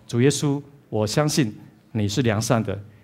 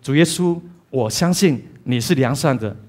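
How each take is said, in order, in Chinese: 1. 这句话说得很轻，声音低。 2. 这句话要提高声音来说。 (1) "如果你在声音上面只是这样子" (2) "尝试提高一些些"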